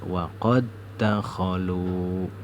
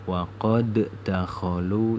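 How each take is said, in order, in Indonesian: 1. D pertama menyatu menjadi satu bunyi d yang ganda. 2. D pertama dibaca terpisah sebelum d kedua. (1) "Huruf dal yang sukun ini dihilangkan" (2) "tidak boleh dibaca waqad dakhalu, itu tidak boleh"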